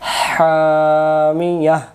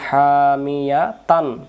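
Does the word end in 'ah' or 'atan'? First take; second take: ah; atan. First: The word ends with an 'ah' sound. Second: The word ends with an 'atan' sound. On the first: The reader stops at the end of the word. "গোলতাটাকে হা বানাই দিয়ে থামতে হবে" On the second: The reader continues without stopping. "এটা যদি না থাকতো তখন হামিয়া তান"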